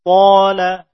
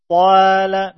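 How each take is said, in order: First: Qala with a heavy, rounded aa like "aw"; thick alif. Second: Qala with the long aa thinned and flattened; thin alif. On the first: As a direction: hit Qala loud with a full, dark long vowel. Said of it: "Mengikuti tebalnya huruf tersebut". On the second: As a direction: let the vowel of Qala turn light after a heavy start. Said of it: "tidak dibaca tipis". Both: Shown as a demonstration.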